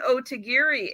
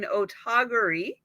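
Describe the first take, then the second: First: The third syllable has an 'ee' vowel. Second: The third syllable has an 'ah' vowel. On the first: The speaker calls it wrong. "We're not saying otagiri any longer" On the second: The speaker calls it right. "We're saying otagari"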